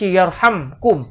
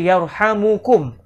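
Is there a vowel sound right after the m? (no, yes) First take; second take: no; yes. First: The m is followed directly by k, no vowel. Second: The m is followed by a short u vowel. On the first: "Tak dibaca yarhamkum" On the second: "Huruf mim itu tidak dimatikan, sebaliknya di baris depan"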